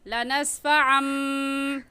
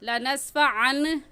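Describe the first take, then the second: First: The word ends in a nasalized m sound. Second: The word ends in a clear n sound. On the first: The speaker calls it right. "बल्कि कहेंगे लनस्फ़ा अम" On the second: The speaker calls it wrong. "हम लनस्फ़ा अन नहीं पढ़ेंगे"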